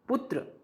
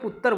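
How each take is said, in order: First: It is said in standard Hindi pronunciation. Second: It is said in a Punjabi regional pronunciation.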